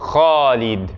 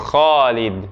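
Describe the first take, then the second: No difference in how they are said.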